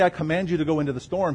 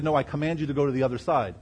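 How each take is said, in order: First: Quick mock misquote, rising on I; the wrong words he never said, lightly mocked; wrong version. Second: Quick, firm, landing down on side; the real command, stressed on side; correct version. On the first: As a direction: rattle off I command you to go into the storm as the misreading, I lifted. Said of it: "He didn't say". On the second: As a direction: set it right, the other side falling with weight. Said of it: "He said". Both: Shown as a demonstration.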